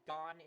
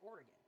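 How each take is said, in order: First: The last syllable sounds like 'gone'. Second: The last syllable does not sound like 'gone'. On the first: The speaker calls it wrong. "if you pronounce it like Gone instead of Oregon" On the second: The speaker calls it right. "It's more fun to pronounce it Oregon"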